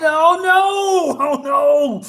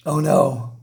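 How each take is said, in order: First: High, loud, slow dismayed wail; dramatic oh no. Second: Said in the usual way. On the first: Real, not acted. Reviewer reacting to the falling queen, dramatic oh no. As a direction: draw out the dismay.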